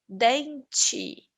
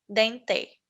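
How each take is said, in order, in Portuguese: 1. A vogal final soa como 'ee'. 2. A vogal final soa como 'e'. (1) "ele vai ter o som de i" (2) "Não vamos falar"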